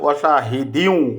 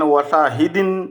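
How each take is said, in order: First: The word ends in a w sound. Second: The word ends in an n sound. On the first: The speaker calls it right. "উচ্চারণ করতে হবে ওয়াশাহিদিউ" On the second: The speaker calls it wrong. "ওয়াশাহিদিন এরকম উচ্চারণ হবে না"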